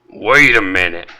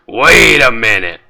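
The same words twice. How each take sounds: First: It is said in a non-raspy voice. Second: It is said in Wallace's raspy voice.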